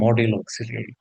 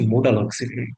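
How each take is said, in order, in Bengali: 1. প্রথম শব্দটি 'model' এর মতো শোনায়। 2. প্রথম শব্দটি 'modal' এর মতো শোনায়। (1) "অনেকেই ভুল করে এটাকে উচ্চারণ করে মডেল অক্সিলারি" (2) "এটা হচ্ছে মোডাল অক্সিলারি"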